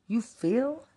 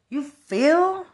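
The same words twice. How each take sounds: First: Said in the usual way. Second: 훨씬 높고 크게 외치는 비아냥; 높은 소리로 크게 쏘아붙여; shouted taunt. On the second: Real, not acted. Repeated taunting question.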